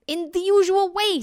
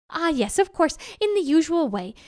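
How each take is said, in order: First: High, loud, impatient tiger; exasperated tiger. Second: Higher, knowing jackal voice; agreeable jackal. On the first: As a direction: answer as if it were obvious. Tiger exasperated by silly question. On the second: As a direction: pretend it all makes sense. Jackal pretends to understand tiger. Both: A narrator's reading.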